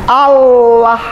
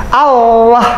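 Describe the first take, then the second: Both takes have the same delivery.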